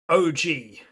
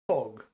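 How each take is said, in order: First: The name is spoken as two separate letters. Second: The name is spoken as a single syllable. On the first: "I pronounce O G" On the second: "So he pronounces it Og"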